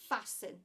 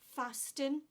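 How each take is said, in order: First: No T sound is heard in the middle. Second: A T sound is heard in the middle. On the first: The speaker calls it right. "We don't pronounce the T. We say fasten" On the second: The speaker calls it wrong. "We do not say fasten"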